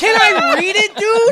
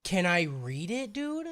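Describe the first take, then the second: First: High, loud shout; loud, pitched-up interrupting plea; exasperated demand. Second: Slow, soft, lower plea; drawn-out quiet asking; toned-down request. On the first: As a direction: yell to get the floor back. Repeats demand over co-host's jabs. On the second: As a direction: ask it softly and slowly, rising on dude. Same demand, suddenly toned down. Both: Real, not acted.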